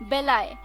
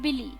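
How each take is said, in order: First: The word ends with a 'lie' sound. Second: The word ends with a 'lee' sound.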